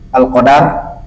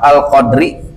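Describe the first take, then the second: First: The word ends in a closed syllable, 'dar'. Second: The word ends with a short i vowel. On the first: The reader stops at this word. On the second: The reading continues without stopping.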